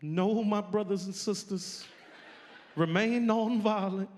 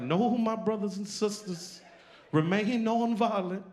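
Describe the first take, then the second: First: Higher, slow, preacherly calm. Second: Preacher voice. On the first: Imitating King calming marchers, higher slow preacher voice. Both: Retold or imitated. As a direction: lift it up like a sermon. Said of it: "And he's like".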